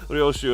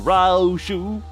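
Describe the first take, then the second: First: The name is pronounced the Japanese way. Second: The name is pronounced the American way. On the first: The speaker calls it right. "he actually does say Ryoshu" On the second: The speaker calls it wrong. "as opposed to Ryoshu"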